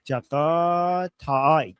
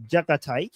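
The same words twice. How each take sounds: First: "Jakataik" drawn out syllable by syllable; careful, slow reading of "Jakataik"; slow sounding-out. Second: Said in the usual way. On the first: Real, not acted. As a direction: stretch the vowels of "Jakataik" very slowly. Sounding out an unfamiliar username.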